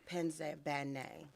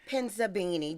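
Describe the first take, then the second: First: The last syllable sounds like 'nay'. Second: The last syllable does not sound like 'nay'. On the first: The speaker calls it right. "Bay name" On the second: The speaker calls it wrong. "I said it wrong"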